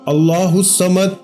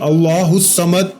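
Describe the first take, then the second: Both takes have the same delivery.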